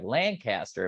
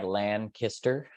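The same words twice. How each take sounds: First: The name is said the way newcomers say it. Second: The name is said the way locals say it. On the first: The speaker calls it wrong. "I moved here and I was like Lancaster and people are like, no" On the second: The speaker calls it right. "which is like Lancaster. So that's how to do it"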